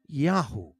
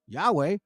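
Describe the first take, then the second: First: The name ends with an 'oo' sound. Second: The name ends with a 'weh' sound. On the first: The speaker calls it right. "but in proper pronunciation" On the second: The speaker calls it wrong. "In this case"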